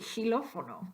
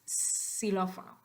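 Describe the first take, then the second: First: The first sound is a rough ch sound. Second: The first sound is a plain s sound. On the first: The speaker calls it wrong. "if it were phonetically written, it would be xilófono" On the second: The speaker calls it right. "it makes the S sound, so it's xilófono"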